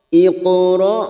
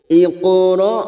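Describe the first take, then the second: No difference in how they are said.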